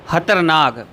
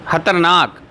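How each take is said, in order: Both takes have the same delivery.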